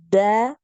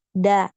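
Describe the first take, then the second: First: The sound is drawn out and flowing. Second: The sound is cut short and abrupt. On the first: The speaker calls it wrong. "dialirkan dulu suaranya. Da, bukan seperti itu ya" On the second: The speaker calls it right. "Jadi langsung, tidak ngalir"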